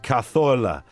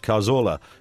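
First: The z is said as a th sound. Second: The z is said as an s or z sound. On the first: The speaker calls it wrong. "with the TH" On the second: The speaker calls it right. "the just the way you'd normally pronounce it"

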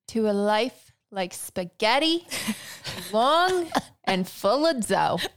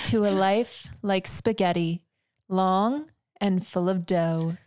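First: It is said in a New York accent. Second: It is said in her ordinary accent.

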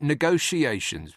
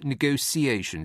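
First: The middle sound is a soft, lazy sh. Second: The middle sound is a clipped, sharp s. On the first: "I pronounce it negotiations with a lazy SH" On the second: "not a clipped, bolt upright, scrub clean, sharp S"

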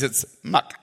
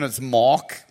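First: It is said in a Chinese accent. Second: It is said in a South African accent.

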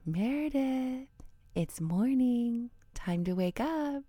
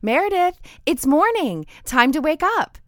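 First: The voice is soft and gentle. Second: The voice is loud and bright. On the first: The waking feels warm. The speaker calls it right. "And when I do it, I say" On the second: The waking is startling. The speaker calls it wrong. "His bright trumpet of a voice startles her"

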